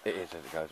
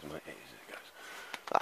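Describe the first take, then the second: First: Said in the usual way. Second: Slow, drawn-out agreement. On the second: Real, not acted. Agreeing with his mate on the weather, slowly. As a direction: say it slowly and softer, musing.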